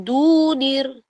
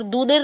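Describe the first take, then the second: First: दूनिर with the u held a little long; the right way, दूनिर with a longer u; correct long u. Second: दूनिर with the u cut short; the wrong way, दूनिर too short; wrong short vowel. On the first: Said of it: "ये है दूनिर". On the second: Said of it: "दूनिर नहीं है". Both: Shown as a demonstration.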